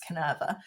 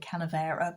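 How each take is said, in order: First: The name has no extra middle syllable. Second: The name has an extra syllable in the middle. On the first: The speaker calls it right. "but it's Canerva" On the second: The speaker calls it wrong. "I keep calling it Canavera"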